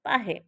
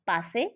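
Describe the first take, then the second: First: The middle consonant is an 'h' sound. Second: The middle consonant is an 's' sound. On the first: This is the dialect form. "સનો હ ઉચ્ચાર" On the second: This is the standard form. "સનો હ ઉચ્ચાર"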